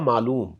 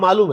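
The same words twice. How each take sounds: First: The word is said in its full form. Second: The word is said in a shortened form. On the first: "अब ये लफ्ज है पूरा मालूम" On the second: "मालूम पूरा नहीं बोलते"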